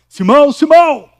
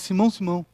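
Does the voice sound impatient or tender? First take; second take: impatient; tender. First: The name is called out impatiently and sharply. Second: The name is called out gently and tenderly. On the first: The caller is losing patience. "quando a gente está impaciente" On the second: The caller speaks out of affection and care. "não por impaciência, mas por ternura"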